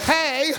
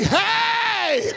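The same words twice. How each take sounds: First: The greeting is flat and unexcited. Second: The greeting is excited and overjoyed.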